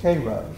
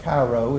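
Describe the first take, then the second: First: It uses the local Georgia pronunciation. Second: It uses the general, non-local pronunciation. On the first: The speaker calls it right. "it's pronounced Cairo" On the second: The speaker calls it wrong. "not uh, Cairo"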